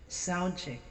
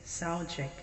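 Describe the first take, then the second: No difference in how they are said.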